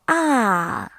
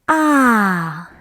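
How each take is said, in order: First: The pitch falls steadily from high to low. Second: The same.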